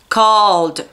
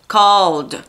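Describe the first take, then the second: No difference in how they are said.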